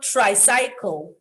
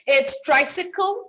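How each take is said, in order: First: Tricycle said TRY-sy-kul with a long middle vowel; tricycle, middle said like cycle; wrong tricycle. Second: Tricycle said TRY-si-kul; correct tricycle. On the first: Retold or imitated. Teacher showing the mistake to avoid. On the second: Shown as a demonstration. Teacher giving the right form. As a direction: tricycle with a short middle i. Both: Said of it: "not tricycle".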